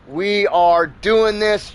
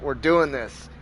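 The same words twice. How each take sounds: First: "We are doing this" slowed right down, word by word; emphatic resolve. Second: Said in the usual way. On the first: Retold or imitated. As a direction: stretch and weight each word of "We are doing this". Pig's resolve, repeated emphatically.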